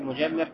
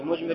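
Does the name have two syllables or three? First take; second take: three; two. First: The name has three syllables, with a middle vowel. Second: The name has two syllables, with no middle vowel. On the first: "еще можно сказать тоже муджаммир" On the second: "И муджмир"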